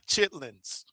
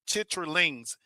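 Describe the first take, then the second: First: The word is said clipped, in shortened form. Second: The word is said in full, all syllables. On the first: The speaker calls it wrong. "not chitlins" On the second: The speaker calls it right. "that's how it's really pronounced"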